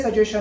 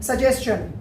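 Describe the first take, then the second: First: सजेशन with plain "shun", no ch; mistaken reading. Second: सजेशन as su-JES-chun, with s and ch; correct pronunciation. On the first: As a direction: show wrong सजेशन as su-JAY-shun. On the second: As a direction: end सजेशन on a clear "s-chun". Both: Shown as a demonstration. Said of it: "ना कि ये सजेशन है".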